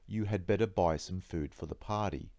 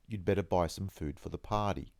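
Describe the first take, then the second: First: The word had is pronounced fully and clearly. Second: The word had is contracted and barely audible.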